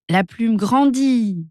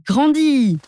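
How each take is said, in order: First: Very slow, stretched growing; slow build. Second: Much higher, bursting peak; big climax. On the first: Narrator tells the feather growing, slow stretched start. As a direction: let the word grow slowly. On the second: Narrator tells the feather growing, high bursting finish. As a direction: make it burst out huge. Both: A narrator's reading.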